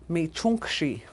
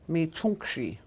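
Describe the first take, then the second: The two takes are said the same way.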